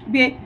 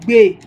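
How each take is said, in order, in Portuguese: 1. A palavra é falada em tom médio. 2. A palavra é falada em tom baixo.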